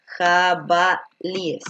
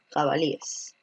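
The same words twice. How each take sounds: First: Jabalíes stretched out slowly, each syllable drawn; slow teaching demo of the plural. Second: Said in the usual way. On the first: Shown as a demonstration. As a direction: spell out jabalíes slowly for the class. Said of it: "lo correcto sería". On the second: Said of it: "Esa es la forma plural".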